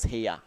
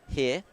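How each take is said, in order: First: It is said in a two-syllable Australian accent. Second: It is said in a New Zealand accent.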